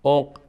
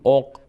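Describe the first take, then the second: The two takes are said the same way.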